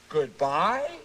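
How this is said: It is said unsure, like a question.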